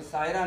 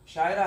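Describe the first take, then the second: First: सायरा said with a plain "s" at the start, स-य-रा; the mistaken way, सायरा with a hard "s" instead of "sh"; wrong Sayara. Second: शायरा said with a clear "sh" at the start, शा-य-रा; correct Shayara. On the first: (सायरा को "स" की ध्वनि के साथ, गलत उच्चारण की तरह बोलें) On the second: (शायरा को "श" की ध्वनि के साथ साफ़ बोलें) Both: Shown as a demonstration. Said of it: "सायरा नहीं है".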